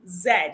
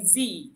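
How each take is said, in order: First: It is the non-American 'zed' pronunciation. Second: It is the American 'zee' pronunciation.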